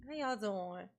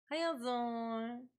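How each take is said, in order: First: Said in the usual way. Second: Slow, stretched "How y'all doing" with a rise on "y'all"; lazy sing-song greeting; drawn-out greeting. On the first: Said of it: "repeated greeting". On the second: Shown as a demonstration. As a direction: stretch it out like a Southern hello. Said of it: "repeated greeting, drawn out".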